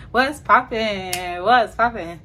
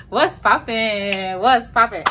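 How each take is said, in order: Both takes have the same delivery.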